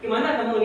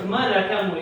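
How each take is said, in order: First: The phrase is said in a Minang accent. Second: The phrase is said in a Batak accent. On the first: "Tapi itu orang Minang" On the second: "Itu orang Batak ada"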